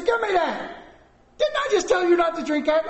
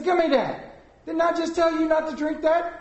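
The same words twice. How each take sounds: First: Very high, loud mock scolding; angrier parent. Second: High-pitched, louder retold scolding; exasperated parent. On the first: Dad to child drinking it a second time, hollering in exasperation. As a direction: lose patience and holler at the child. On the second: Dad to child who took his Coke, exasperated.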